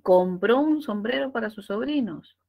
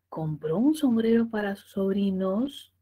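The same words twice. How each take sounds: First: The voice falls at the end. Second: The voice rises at the end. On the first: It is a statement. "yo lo vi, yo estuve ahí" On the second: It is a yes-no question. "tono ascendente, enunciado interrogativo absoluto"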